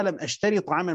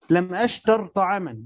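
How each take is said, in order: First: أشتري read with a long final i; the mistaken أشتري, with the ي sounded; wrong reading. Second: أشتر read with a silent final r and no long i; أشتر without the final ي, the r carrying sukun; correct reading. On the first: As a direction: stretch أشتري so it ends on an ee sound. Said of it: "يعني مش هقرأها". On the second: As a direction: say أشتر clipped short, ending on a still r. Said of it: "يعني مش هقرأها "لم أشتري طعاما". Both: Shown as a demonstration.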